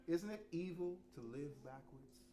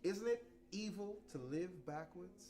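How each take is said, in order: Both takes have the same delivery.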